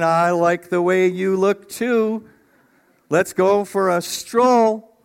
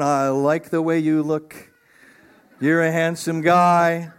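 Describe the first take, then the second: First: Playful Adam. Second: Admiring Eve. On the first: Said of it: "he's saying". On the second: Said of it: "she's going". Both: Pretend.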